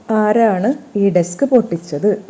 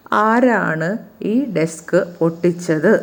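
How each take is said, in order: First: Teacher to class, mildly stern, stressing ആരാണ്; stern demanding question. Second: Said in the usual way. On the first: Shown as a demonstration. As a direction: demand to know who broke the desk, hitting ആരാണ്. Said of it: "ആരാണ് ഈ desk പൊട്�ിച്ചത്?".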